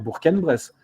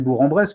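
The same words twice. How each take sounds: First: The final g of Bourg is pronounced. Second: The final g of Bourg is silent. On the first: This is the supposedly correct form. The speaker calls it right. "on devrait dire Bourg-en-Bresse ... G prononcé" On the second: This is how people commonly say it. The speaker calls it wrong. "c'est Bourg-en-Bresse que nous disons"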